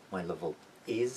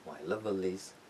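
First: "my level is" slowly, a break before "is"; slow, separated "my level is"; unlinked words. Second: "my lovelies" joined up, L carried onto is as "liz"; smoothly linked, clear L in "my lovelies"; linked final L. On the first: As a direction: keep the dark L of "level" apart from "is". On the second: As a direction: pull the L into the next vowel in "my lovelies". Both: Shown as a demonstration.

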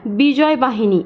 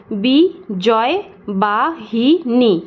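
First: Said in the usual way. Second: "বিজয় বাহিনী" very slowly as বি-জয়-বা-হি-নী; five long, separated beats on "বিজয় বাহিনী"; split into syllables. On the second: Shown as a demonstration. Teacher answering how it breaks up, "বিজয় বাহিনী" syllable by syllable. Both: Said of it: "এটাকে ভাঙলে আমরা কি পাবো".

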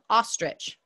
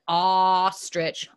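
First: Said in the usual way. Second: "ostrich" with a long, loud opening ah; stretched first sound. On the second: Shown as a demonstration. Teacher offering ostrich as an O word, stretched. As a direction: hold the first vowel of "ostrich", then finish.

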